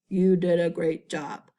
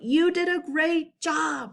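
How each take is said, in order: First: It is said without excitement. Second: It is said with excitement.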